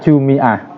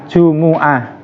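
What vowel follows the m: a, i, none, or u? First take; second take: i; u. First: The m is followed by an i vowel. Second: The m is followed by a u vowel.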